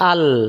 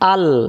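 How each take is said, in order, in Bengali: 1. শব্দটা স্বরহীন ব্যঞ্জনধ্বনি দিয়ে শেষ হয়। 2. শব্দটা স্বরহীন ব্যঞ্জনধ্বনি দিয়ে শেষ হয়।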